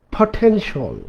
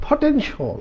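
First: Said in the usual way. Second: Potential said high and soft; teaching model. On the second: Shown as a demonstration. Teacher models potential for learners, high and soft. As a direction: lift potential high, gently. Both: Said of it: "it's a".

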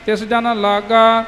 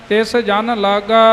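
No difference in how they are said.

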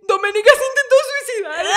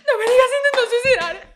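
First: High, loud fake alarm; mock panic. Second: High, loud panic broken by laughter; laughing fake panic. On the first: Lying to Alex before the officer, high fake panic. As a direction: sell the lie in a panic. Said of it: "le dije". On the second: Retelling her lie to the officer, laughing fake panic. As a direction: repeat the lie while laughing.

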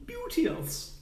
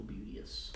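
First: Beauteous! exclaimed much higher in a put-on voice; exclaimed word. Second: Said in the usual way. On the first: Shown as a demonstration. Savouring the word Beauteous! for viewers, high put-on voice. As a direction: sing out Beauteous! in a falsetto flourish. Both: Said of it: "That's a word people don't use enough".

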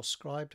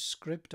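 First: Scribed said with a long i, as in scribe; long-i pronunciation. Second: Scribd said with a short i, as in script; short-i pronunciation. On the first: Author offering the other way to say the name, Scribed with long i. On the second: Author offering two ways to say a service's name, Scribd with short i. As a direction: say Scribd to rhyme roughly with ribbed. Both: Shown as a demonstration. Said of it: "however you want to pronounce it".

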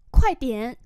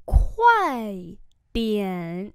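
First: Said in the usual way. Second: Long syllables, clearly separated; slow model reading. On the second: Shown as a demonstration. Teacher modelling "hurry up a bit" for learners, slowly. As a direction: stretch out both syllables.

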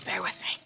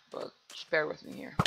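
First: Said in the usual way. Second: Soft unvoiced whisper; hushed plea to viewers. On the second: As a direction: breathe it out like a secret. Pleading with viewers about lag.

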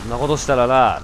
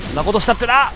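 First: Said in the usual way. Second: Mock scolding shout. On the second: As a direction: raise it on そんなことしたってな, rising at the end on な. Lecturing the enemy, raised.

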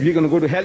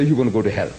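First: Slightly raised challenge in a retold dispute; tit-for-tat accusation. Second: Lower, falling comeback in a retold dispute; tit-for-tat retort. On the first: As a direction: throw out the first side's claim, pitched up. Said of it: "You say". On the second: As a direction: answer back with a dropped pitch. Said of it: "we say".

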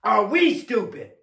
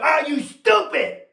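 First: "we" lifted and stretched, less forceful after it; slow question with "we" as the high point; stress on WE. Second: High, slowed challenge punching "stupid"; indignant preacher's cry landing hard on "stupid"; shouted rebuke. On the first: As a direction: lean on "we" to include yourself. Rewords the rebuke to include himself. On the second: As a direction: throw "stupid" at them as a raised rebuke. Challenges congregation, then softens to we. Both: Real, not acted.

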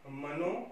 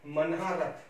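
First: मनोरथ slowly, broken as mano, rath; corrected form. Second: मनहारथ slowly, with "haa" in the middle; misspelt form. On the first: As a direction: say मनोरथ with "no" replacing "haa". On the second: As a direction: say मनहारथ as man-haa-rath. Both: Shown as a demonstration. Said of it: "तो इसका हो जाएगा".

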